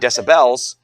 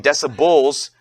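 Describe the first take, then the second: First: The last syllable is full, like 'bell'. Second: The last syllable is reduced, like 'bull'. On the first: "because a bell is a unit of measure" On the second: "you might be tempted to spell it B L E S"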